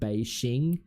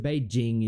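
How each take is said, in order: First: The middle consonant is a soft zh sound. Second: The middle consonant is a hard j sound. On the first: The speaker calls it wrong. "which my mum would say" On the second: The speaker calls it right. "more right"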